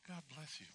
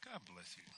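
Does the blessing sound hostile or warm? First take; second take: warm; hostile. First: It is said in a warm, sincere tone. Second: It is said in a harsh, hostile tone. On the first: The blessing is meant sincerely. "And you'll take that in" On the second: The blessing is meant as an insult. "please, take that one back"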